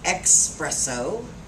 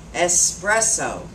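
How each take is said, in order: First: The word begins with an ex sound. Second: The word begins with an es sound. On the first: The speaker calls it wrong. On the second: The speaker calls it right.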